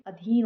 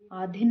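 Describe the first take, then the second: First: Said in the usual way. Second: आधीन opening on long aa; long first vowel. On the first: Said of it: "होता है". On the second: Shown as a demonstration. Teacher showing students an error, long first vowel. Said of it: "नहीं".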